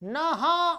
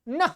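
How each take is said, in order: First: It ends with a separate, full 'ha' syllable. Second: It ends with only a light breathy 'h'. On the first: The speaker calls it wrong. "हा नहीं लग बोल देना" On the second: The speaker calls it right. "हल्का सा ह के समान ध्वनि करें"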